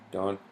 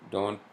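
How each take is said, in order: Both takes have the same delivery.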